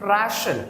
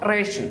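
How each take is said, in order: First: The first vowel sounds like the one in rat. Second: The first vowel sounds like the one in rate. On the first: The speaker calls it right. "In English it is suppose to ബി റാഷൻ" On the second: The speaker calls it wrong. "Not റേഷൻ"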